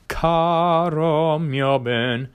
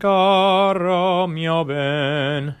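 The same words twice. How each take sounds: First: Caro starts with a hard, closed k sound. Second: Caro starts with a softer, throaty g sound. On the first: The speaker calls it wrong. "instead of going a hard K" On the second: The speaker calls it right. "you change it to a ga"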